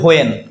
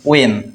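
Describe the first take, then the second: First: It begins with an h sound. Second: It begins with a plain w sound. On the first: The speaker calls it wrong. "আমরা বলি হোয়েন" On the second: The speaker calls it right. "কিন্তু হবে কি ওয়েন"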